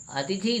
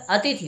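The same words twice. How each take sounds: First: अतिथि with a long final "thee"; stretched last vowel in अतिथि; mispronounced अतिथि. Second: अतिथि with short "i" in both "ti" and "thi"; corrected pronunciation. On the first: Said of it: "अतिथि नहीं". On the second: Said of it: "अतिथि होना चाहिए". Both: Shown as a demonstration.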